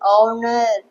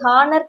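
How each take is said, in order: First: The word begins directly with a vowel sound. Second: The word begins with an audible h sound. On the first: The speaker calls it right. "H வந்து silent தான்" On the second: The speaker calls it wrong. "இது ஹானர் கிடையாது"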